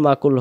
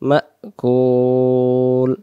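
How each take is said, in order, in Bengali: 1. এটা মসৃণভাবে বলা হয়, ma-র পরে কোনো থামা নেই। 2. প্রথম অক্ষরের পরে একটা শক্ত গলার থামা আসে। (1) "মাকুল মাকুল হবে না" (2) "মিমের জবরটা এই হামজা অক্ষরটার সাথে ধাক্কা দিয়ে আওয়াজ পড়তে হবে"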